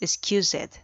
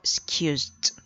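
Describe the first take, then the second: First: The ending is pronounced as 'ed'. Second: The ending is pronounced as 't'. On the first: The speaker calls it wrong. "No es excused" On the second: The speaker calls it right. "se elimina la ed y se reemplaza por una t al final"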